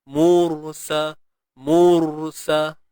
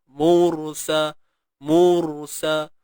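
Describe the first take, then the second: No difference in how they are said.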